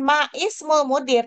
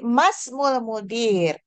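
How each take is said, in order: First: A separate glottal vowel starts ismul after ma. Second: Ma runs straight into smul with no stop. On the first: The speaker calls it wrong. "bukan ma ismul mudir" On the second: The speaker calls it right. "tapi masmul mudir"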